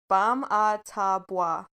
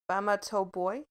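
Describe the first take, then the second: First: The name ends with a 'bwah' sound. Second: The name ends with a 'boy' sound. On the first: The speaker calls it right. "but it's pronounced" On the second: The speaker calls it wrong. "how it's spelled"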